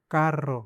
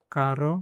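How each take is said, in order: First: कार रो split with a trilled r; कार रो, pause then roll the r; rolled double r. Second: कारो with one quick tapped r; कारो said short and smooth; single r. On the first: ("कार रो" घुमाकर लंबा र) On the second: ("कारो" एक हल्के र के साथ) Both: Shown as a demonstration. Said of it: "इस पे ध्यान देना है".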